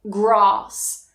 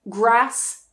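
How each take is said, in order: First: The vowel is long, as in father. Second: The vowel is short, as in trap. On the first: The speaker is from the south of England. "in the south, you will hear that very long ah sound" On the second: The speaker is from the north of England. "in the north, you will hear that very short ah"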